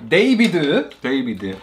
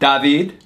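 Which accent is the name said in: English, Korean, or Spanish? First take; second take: Korean; Spanish. First: The name is said with a Korean accent. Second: The name is said with a Spanish accent. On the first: "In Korean, they say" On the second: "The Spanish accent, it's"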